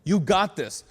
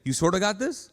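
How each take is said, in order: First: Firm, sure encouragement; confident. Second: Tentative, doubtful encouragement; unsure. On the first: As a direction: say it with full conviction. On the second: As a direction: hedge it weakly. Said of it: "what do you say?". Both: Shown as a demonstration.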